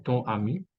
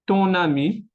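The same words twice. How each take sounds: First: Ton ami with no n; missing liaison. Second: Ton ami linked with an n; liaison in N. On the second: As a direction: say "Ton ami" as ton-nami, raised pitch. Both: Shown as a demonstration. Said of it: "y no ton ami".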